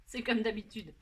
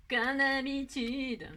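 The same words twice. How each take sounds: First: Said in the usual way. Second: Drawn out, slowly resigned; résignation amusée. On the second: Real, not acted. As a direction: stretch "Comme d'habitude" into a slow sigh of resignation. Se moque de ses erreurs. (« Comme d'habitude » étiré lentement, résigné)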